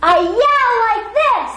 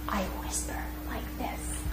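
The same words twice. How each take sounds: First: Loud, high, slow yell. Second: Breathy unvoiced whisper. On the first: Teacher demonstrating a yell to the class. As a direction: belt it out like a yell. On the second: Teacher showing a whisper to students. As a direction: whisper it to the class. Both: Shown as a demonstration.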